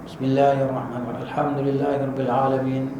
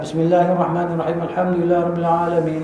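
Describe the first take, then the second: First: It is recited slowly, verse by verse. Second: It is recited fast, verses run together.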